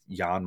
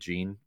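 First: The name does not rhyme with 'bean'. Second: The name rhymes with 'bean'. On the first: The speaker calls it right. "It's Jan Montero" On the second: The speaker calls it wrong. "I think I was pronouncing it Gene"

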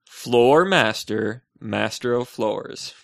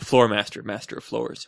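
First: It is said much more slowly. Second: It is said at a normal, quick pace.

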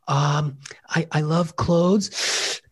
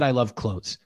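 First: It is said hesitantly, expecting judgment. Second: It is said plainly and confidently.

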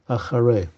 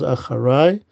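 First: Said in the form meaning afterwards. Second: Said in the form meaning behind me. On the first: Something came later in time. The speaker calls it wrong. "and not acharei" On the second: Something was heard from behind. The speaker calls it right. "here the word is acharei"

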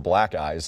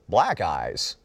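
First: It is said quickly, run together. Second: It is said slowly and separately.

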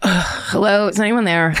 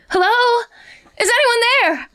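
First: It sounds strained and weary, like heavily pregnant. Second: It is called out in a plain voice.

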